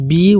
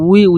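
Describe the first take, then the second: First: The syllable begins with a b sound. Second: The syllable begins with a w sound. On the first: The speaker calls it wrong. "অনেকজন আমরা পড়ি বি" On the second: The speaker calls it right. "ওয়াউজের উই উচ্চারণ হয়"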